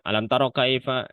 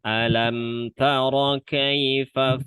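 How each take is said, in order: First: It is read quickly, with the words rushed together. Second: It is read at an even, unhurried pace. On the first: The speaker calls it wrong. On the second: The speaker calls it right. "Tetap jalan"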